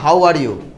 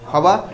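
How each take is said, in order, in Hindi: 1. तीनों शब्द पूरे बोले गए हैं। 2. शब्द मिलकर एक छोटा शब्द बन गए हैं। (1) "जैसे हम लोग कहते हैं ना हाउ आर यू" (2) "हाउ आर यू क्या कहते हैं"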